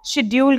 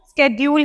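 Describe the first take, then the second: First: The word begins with an sh sound. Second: The word begins with an sk sound. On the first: This is the British way. "British accent देखें तो वहां पे इसको शेड्यूल कहा जा रहा है" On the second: This is the American way. "American accent है उसमें इसको स्केड्यूल ही कहा जाता है"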